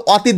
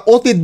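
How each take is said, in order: First: অতীত with an open "aw" first vowel, "aw-teet"; open-o pronunciation. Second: অতীত with a rounded "o" first vowel, "oh-teet"; closed-o pronunciation. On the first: Teacher shows students the form not said, অতীত opened as "aw-teet". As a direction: say অতীত starting on a wide "aw". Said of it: "আমরা কিন্তু অতীত বলি না". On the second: Teacher shows students the spoken form, অতীত as "oh-teet". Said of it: "কিন্তু আমরা অতীত বলি". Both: Shown as a demonstration.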